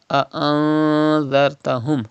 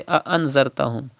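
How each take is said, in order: First: "A'anzartahum" with a drawn-out nasal n; Ikhfa with Gunna. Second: "A'anzartahum" with a short full n; mistaken clear Noon. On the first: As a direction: hold the hum in "A'anzartahum", then th. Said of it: "Gunna will be done in Noon Sakin". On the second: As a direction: say "A'anzartahum" with no nasal hold. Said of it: "Do not say A'anzartahum". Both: Shown as a demonstration.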